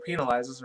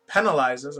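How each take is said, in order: First: "penalizes" with a long ee; alternate pronunciation. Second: "penalizes" with a short e; usual pronunciation. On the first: Reader offering the other way to say it, "penalizes" opening like pea. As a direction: say "penalizes" as PEE-nuh-lizes. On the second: Reader trying a word from the article, "penalizes" opening like pen. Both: Shown as a demonstration. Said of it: "if you want to say that word".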